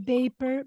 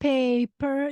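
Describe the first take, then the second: First: The word begins with a B sound. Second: The word begins with a P sound. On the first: The speaker calls it wrong. "they would say paper" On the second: The speaker calls it right. "instead of paper"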